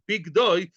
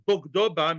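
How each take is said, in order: First: The first vowel is an 'ee' sound. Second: The first vowel is an 'ah' sound. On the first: This is the traditional reading. "you pronounce this with a chirik" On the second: This reading follows the written letters and means he betrayed her. "if you read the Torah the way it's it's it's written"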